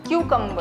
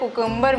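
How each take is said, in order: First: The first syllable is a "kyoo" sound. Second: The first syllable is a plain "koo" sound. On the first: The speaker calls it right. "आप लोगों को बोलना है क्यूकम्बर" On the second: The speaker calls it wrong. "इनकी तरह कुकुम्बर मत बोलिएगा please"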